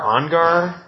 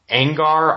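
First: Angar with an open AH, as AHN-gar; tentative "AHN-gar"; unsure pronunciation. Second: Angar with the flat A of "hang"; tentative "ANG-gar"; unsure pronunciation. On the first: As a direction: say Angar like "on-gar", higher and questioning. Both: Shown as a demonstration. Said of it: "I'm gonna mispronounce his name".

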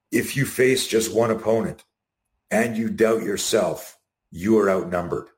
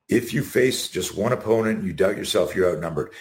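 First: Slow quote. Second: Said in the usual way. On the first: Shown as a demonstration. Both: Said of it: "his greatest quote".

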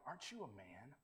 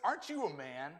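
First: Low, hushed question to oneself; self-challenge. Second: Pointed rhetorical challenge at full voice; challenging. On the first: Pretend. Man to his mirror in the morning, quiet self-challenge. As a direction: say it softly to your own reflection. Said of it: "write on our mirrors in the morning". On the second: Acted. David confronts Abner over his unguarded king, challenging. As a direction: throw it out as a taunt. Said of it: "I love David's words in this".

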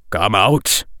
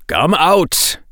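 First: Said in the usual way. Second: A firmer, harder "Come out". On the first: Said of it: "Bahri said". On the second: A narrator's reading. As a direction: say "Come out" as a hard command. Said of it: "making his voice harder".

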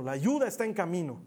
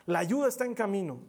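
First: Said in the usual way. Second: Louder repeat with weight on "ayuda"; emphatic repeat. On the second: Shown as a demonstration. Pastor repeats the promise to the congregation, with stress on "ayuda". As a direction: hit "ayuda" harder, a little higher and louder. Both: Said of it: "Porque me encanta decirlo".

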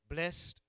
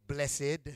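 First: "Blessed" said as one syllable, blest; "Blessed" as plain blest. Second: "Blessed" said in two syllables, bless-ed; "Blessed" the church way, bless-ed. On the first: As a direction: clip "Blessed" to a single beat, blest. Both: Shown as a demonstration. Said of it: "or like some of y'all say".

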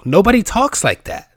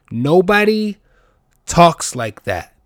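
First: "Nobody talks like that" high and loud in one run; exasperated emphasis. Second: "Nobody" high and loud, pause, "talks like that" slow and falling; slow, spaced emphasis. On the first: Podcaster griping about email talk, "Nobody talks like that" high and exasperated. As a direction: burst out with "Nobody talks like that", pitched up throughout. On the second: Podcaster hammering the email complaint, "Nobody", pause, "talks like that" slowly. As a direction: split it: punch "Nobody", wait, drop slowly through "talks like that". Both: Real, not acted.

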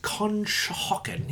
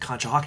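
First: Conshohocken drawn out slowly and pitched high; imitating someone carefully pronouncing Conshohocken; sounding it out. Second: Said in the usual way. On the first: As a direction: sound out CONSHOHOCKEN slowly, as if trying a new place name. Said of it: "He's, like, pronouncing it". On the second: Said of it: "pronouncing it".

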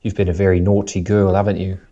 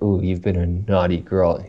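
First: Disciplining British grandma; British accent. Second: Sultry North American delivery, kept quiet; North American accent. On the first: Host imitating a grandma disciplining you, British accent. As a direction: scold mildly as a British granny, "haven't you?" tagged on. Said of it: "it sounds like a grandma's, like, disciplining you". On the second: Host showing how it sounds sexual in a North American accent. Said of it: "in a North American accent". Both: Shown as a demonstration.

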